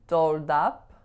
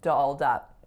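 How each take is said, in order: First: The vowels are pure, with 'oh' in dolled. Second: The vowels are relaxed, with 'ah' in dolled. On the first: The speaker calls it wrong. "both pure vowels" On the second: The speaker calls it right. "that first vowel is ah"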